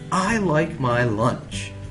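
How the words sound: It is read in a very excited voice.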